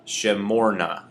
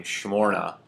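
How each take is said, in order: First: "Shemorna" with a fuller e, as in pet, after the sh; clear E vowel. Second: "shmorna" with only an indistinct vowel between sh and m; fast reading. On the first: Teacher showing how we would say that one, with a clear E. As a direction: give the first vowel of "Shemorna" a distinct eh. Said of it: "put a little bit more of a". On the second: Teacher showing what you may hear in a fast reading. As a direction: run sh into m in "shmorna", barely any vowel. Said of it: "in a fast reading". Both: Shown as a demonstration.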